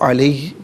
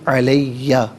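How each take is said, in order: First: The word ends without a final vowel. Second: The word ends with an open final vowel. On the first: The reader stops at this word. "यहाँ रुकेंगे तो अलैह पढ़ा जाएगा" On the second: The reading continues without stopping. "मिलाकर पढ़ेंगे अलैया"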